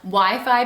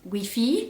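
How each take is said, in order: First: It is said with an English accent. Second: It is said with a French accent.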